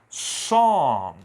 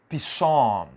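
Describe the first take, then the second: First: The initial P sound is silent. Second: The initial P sound is pronounced. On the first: The speaker calls it right. "A pronúncia aqui é som... Eu começo direto na letra S" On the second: The speaker calls it wrong. "eu não vou dizer psom, psom, negativo"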